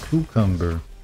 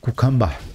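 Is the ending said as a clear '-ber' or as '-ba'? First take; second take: -ber; -ba. First: The word ends with a clear '-ber' sound. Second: The word ends with an open '-ba' sound. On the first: "I should pronounce it cucumber" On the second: "I love to say it like cucumba"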